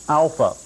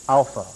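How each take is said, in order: No difference in how they are said.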